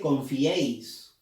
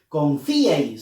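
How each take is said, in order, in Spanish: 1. El acento recae en la e. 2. El acento recae en la i. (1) "La E lleva fuerza de voz" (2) "Nadie dice"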